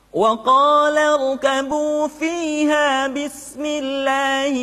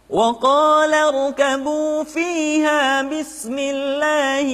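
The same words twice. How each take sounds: No difference in how they are said.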